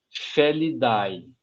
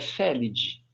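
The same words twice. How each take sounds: First: The ending is said with an audible a sound. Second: The ending is said with no a sound. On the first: The speaker calls it wrong. "A gente não fala família Felidae" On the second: The speaker calls it right. "a família é Felidae"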